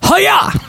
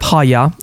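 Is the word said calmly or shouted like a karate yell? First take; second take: shouted; calmly. First: The word is shouted loudly like a fighting yell. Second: The word is said calmly at normal loudness. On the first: "That's what you say when you karate kick somebody" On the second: "I'm pronouncing it so you can look it up"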